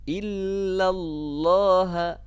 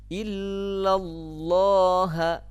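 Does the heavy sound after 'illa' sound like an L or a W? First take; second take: L; L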